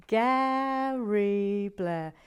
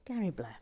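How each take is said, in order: First: Gary Blair stretched very slowly and loud; drawn out name. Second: Said in the usual way. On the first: Real, not acted.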